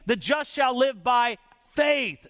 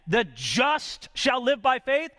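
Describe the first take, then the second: First: The word faith carries the main stress. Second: The word just carries the main stress. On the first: The focus is on faith. "That's the emphasis there" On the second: The focus is on the justified person. "That's talking about the justified man"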